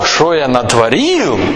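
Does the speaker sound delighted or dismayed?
delighted. It is said with delighted admiration. The speaker is pleased with what was made. The speaker calls it right. "если вы хотите говорить, о, что я натворил"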